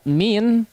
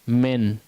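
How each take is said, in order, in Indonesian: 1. Vokalnya adalah bunyi i yang penuh dan jelas. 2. Vokalnya miring, bukan i penuh. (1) "harusnya dibaca min" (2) "miring harakatnya, tidak betul-betul kasrah"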